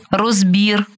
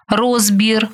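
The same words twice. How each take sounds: First: РозБІР, stressed on the final syllable; stress on last syllable. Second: РОЗбір, stressed on the first syllable. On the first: Teacher showing variant stresses to student, final stress on розбір. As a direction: land on БІР in розбір. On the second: Teacher showing variant stresses to student, first-syllable stress on розбір. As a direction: punch РОЗ in розбір. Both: Shown as a demonstration. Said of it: "Такий наголос ще називають варіантним".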